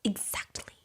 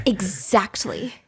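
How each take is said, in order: First: Whispered smug agreement. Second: Slow smug agreement. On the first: Zizi smugly agreeing, in a whisper. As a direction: breathe it out in a whisper. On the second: Drawn-out Zizi agreement. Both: Retold or imitated.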